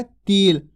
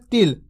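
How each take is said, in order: First: तिल with a long, held "ee"; drawn-out long vowel. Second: तिल said fast with short "i"; quick short vowel. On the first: Teacher explaining the long vowel to learners, तिल drawn out. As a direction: draw तिल out as "teel". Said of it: "ता का उच्चारण खींच के कर रहे". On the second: Teacher contrasting with the long vowel, saying तिल quickly. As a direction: keep the "i" in तिल brief. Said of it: "अगर जल्दी से कर रहे". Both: Shown as a demonstration.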